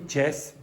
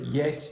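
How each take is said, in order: First: The word begins with a J sound. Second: The word begins with a Y sound. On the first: The speaker calls it wrong. "don't say Jess" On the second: The speaker calls it right. "say yes"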